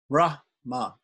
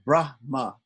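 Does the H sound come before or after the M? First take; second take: before; before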